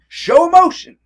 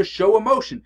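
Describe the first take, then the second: First: Much higher and louder, bursting with feeling; dramatic exclamation; big emotional burst. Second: Said in the usual way. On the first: Shown as a demonstration. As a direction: blow it up with emotion, almost shouting. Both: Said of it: "If they want you to show emotion".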